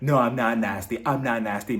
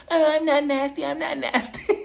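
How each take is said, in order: First: Said in the usual way. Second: Very high-pitched taunting imitation; mocking mimicry. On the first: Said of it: "Lisa, she's like". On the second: [name] making fun of Lisa's voice, mocking mimicry. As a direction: mimic her in a silly, squeaky voice. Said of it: "mimicking her voice like".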